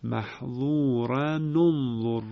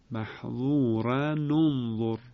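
First: Slow محظورن انظر with damma link, maḥẓūranu-nẓur; Ibn Kathir reading. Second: Slow محظورن انظر linked with a nu sound; Ibn Kathir reading repeated. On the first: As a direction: recite محظورن انظر slowly joining with nu. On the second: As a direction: repeat محظورن انظر slowly, ranu-nzor. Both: Shown as a demonstration.

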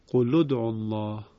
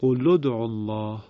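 First: قل ادعوا الله linked as qulud'u; Ibn Kathir reading repeated. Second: قل ادعوا الله joined as qulud'ullah; Ibn Kathir reading. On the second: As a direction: recite قل ادعوا الله linking with u. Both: Shown as a demonstration.

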